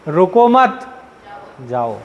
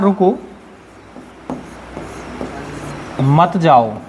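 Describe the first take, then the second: First: The pause comes after the second word. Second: The pause comes after the first word. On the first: The listener is told to go. "Comma बदल दूं" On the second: The listener is asked to stay. "मैं आपको रोकना चाहता हूं"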